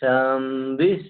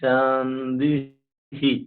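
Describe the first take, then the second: First: The word ends without a final 'hi' sound. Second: The word ends with an audible final 'hi' sound. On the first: The phrase continues after it. "ഇടയ്ക്കുള്ള രണ്ട് ഹി ഹി എന്നുള്ളത് പറയണ്ട" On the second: The sentence ends here. "ഒരു വാക്യം തീരുന്നിടത്തായതുകൊണ്ട് ഹി pronounce ചെയ്യണം"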